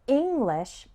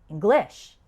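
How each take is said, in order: First: The stress is on the first syllable. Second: The stress is on the second syllable. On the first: The speaker calls it right. "has the stress on the first syllable" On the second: The speaker calls it wrong. "Those sound completely wrong"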